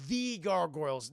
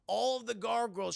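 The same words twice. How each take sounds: First: "the" said as a stressed "thee"; single out "the" as "thee", meaning the famous ones. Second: Said in the usual way. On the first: Real, not acted. Narrator clarifying which gargoyles, "the" stressed as "thee". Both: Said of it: "the top billing gargoyles".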